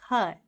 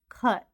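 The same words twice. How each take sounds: First: The final T is held without release. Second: The final T is clearly released. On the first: The speaker calls it right. "we don't say the T part" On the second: The speaker calls it wrong. "You're not going to hear"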